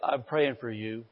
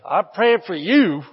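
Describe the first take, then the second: First: It is said warmly and sincerely. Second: It is said with a snide, judgmental edge. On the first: The goodwill is genuine. The speaker calls it right. "from your heart you say" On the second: The speaker still holds resentment. The speaker calls it wrong. "That was your head. That wasn't your heart"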